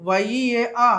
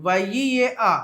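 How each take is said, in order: No difference in how they are said.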